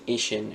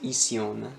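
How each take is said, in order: First: The ending is said with an English accent. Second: The ending is said with a French accent. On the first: The speaker calls it right. "a word like that ends in ishin" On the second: The speaker calls it wrong. "they'll say ision"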